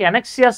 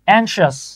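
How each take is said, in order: First: It is said in four syllables, an-ek-si-as. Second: It is said in two syllables, ang-shus. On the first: The speaker calls it wrong. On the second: The speaker calls it right.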